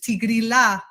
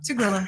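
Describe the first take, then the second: First: It is said with an Italian pronunciation. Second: It is said with an American pronunciation. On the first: "they pronounce it the Italian way, which is Tigrilla gardenia, not the ya" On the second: "the Americans just say, you know, Tigrilla because it's easier"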